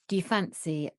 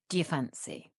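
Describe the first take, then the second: First: The first words are run together and shortened. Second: The same.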